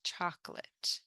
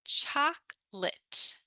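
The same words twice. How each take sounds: First: Whispered "Chocolate." as CHOK-lit, no middle O; soft teacher echo of "Chocolate." as chok-lit; soft model word. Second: Slow "Chocolate." as two beats, CHOK-lit, middle O dropped; high, slow teacher model of "Chocolate." as chok-lit; slow model word. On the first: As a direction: breathe "Chocolate." quietly in two beats. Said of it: "more like chocolate". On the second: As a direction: stretch "Chocolate." skipping the O. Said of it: "we don't really pronounce the O". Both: Shown as a demonstration.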